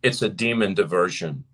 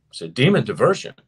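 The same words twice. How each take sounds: First: Said in the usual way. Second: "It's a demon diversion" repeated louder and faster, pressing on "demon"; forceful preacher's repeat of "demon diversion"; emphatic repeat. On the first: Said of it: "He said". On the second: Shown as a demonstration. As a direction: hammer it home louder the second time.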